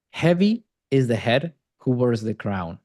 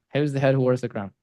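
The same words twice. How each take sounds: First: Weighty quote. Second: Quick and casual, half-muttered; tossed-off quote, fast. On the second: Coach repeating the Shakespeare line to George, fast and offhand. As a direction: rattle it off quickly, throwaway. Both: Shown as a demonstration. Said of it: "You just had to quote Shakespeare".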